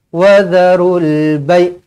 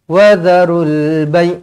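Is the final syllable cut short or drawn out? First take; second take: cut short; cut short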